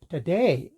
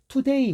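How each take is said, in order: First: The first vowel is a weak 'uh' sound. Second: The first vowel is a full 'oo' sound. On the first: The speaker calls it right. "이렇게 발음합니다" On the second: The speaker calls it wrong. "우리 이렇게 발음하잖아요"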